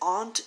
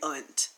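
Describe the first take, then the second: First: The word is said in a formal, polished way. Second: The word is said in an everyday Southern way. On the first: The speaker is trying to sound professional. "Maybe aunt if I'm trying to be, oh, so professional" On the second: This is how the speaker normally says it. "But I say aunt, like, remove the A from the proper word"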